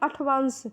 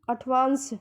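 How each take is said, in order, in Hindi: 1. बीच का व्यंजन 'th' की आवाज़ है। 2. बीच का व्यंजन 'th' की आवाज़ है।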